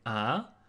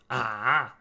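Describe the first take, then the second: First: The pitch rises toward the end. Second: The pitch dips low before rising. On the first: It expresses doubt or asks for an answer. "it's pronounced in the second tone" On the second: It expresses doubt. "The third one"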